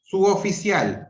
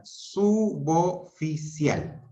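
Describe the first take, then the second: First: Said in the usual way. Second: Suboficial said slowly as su-bo-fi-cial; slow syllables. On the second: Shown as a demonstration. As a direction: break Suboficial into su-bo-fi-cial, the b joined to o. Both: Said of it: "se dividen silábicamente".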